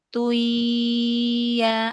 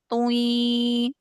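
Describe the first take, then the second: First: The nasal sound flows lightly without ringing. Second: The nasal sound rings strongly. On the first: The speaker calls it right. "Alirkan aja" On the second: The speaker calls it wrong. "Itu terlalu berdenging"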